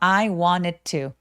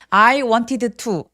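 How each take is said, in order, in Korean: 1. D와 T는 하나의 소리로 합쳐져요. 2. D와 T는 따로 소리 나요. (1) "한 번만 발음합니다" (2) "아니에요"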